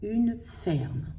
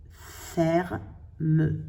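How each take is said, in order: First: Said in the usual way. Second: "ferme" as "fer", pause, "me"; spelled out by syllable. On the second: Shown as a demonstration. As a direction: break "ferme" in two as if writing it down. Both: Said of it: "J'écris une".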